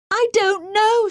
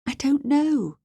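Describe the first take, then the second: First: High, loud, drawn-out wail; desperate cry. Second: Higher, mildly distressed voice; distressed denial. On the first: Captive pressed by the man questioning her, desperate cry. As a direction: cry it out slowly, pitch right up. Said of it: "she cried". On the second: Captive girl answers the man questioning her, mild distress. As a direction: deny it helplessly, pitch raised. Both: A narrator's reading.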